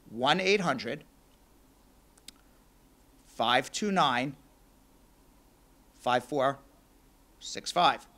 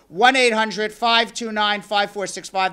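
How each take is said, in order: First: The number is said slowly. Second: The number is said fast.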